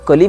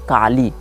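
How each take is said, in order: First: The first vowel is short. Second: The first vowel is long. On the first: "कली में तो ह्रस्व ही होता है" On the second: "के ए H dash L double ई लिखा गया है"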